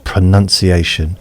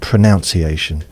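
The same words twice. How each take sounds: First: The second syllable sounds like 'nun'. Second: The second syllable sounds like 'noun'. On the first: This is the usual way to say it. "Why is it pronounced pronunciation? Yeah, it's spelt that way" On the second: This matches the verb it comes from. "it's about how we pronounce. Why not pronunciation? That would make more sense to me"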